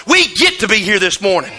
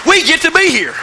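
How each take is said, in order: First: Said in the usual way. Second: "we get to be here" lifted higher, stress on get; emphatic higher repeat. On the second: Shown as a demonstration. Pastor repeating his point to the church, higher and more emphatic. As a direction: drive the point home with a higher lift. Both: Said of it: "Even in the rain".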